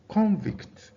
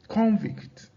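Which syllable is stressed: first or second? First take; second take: first; first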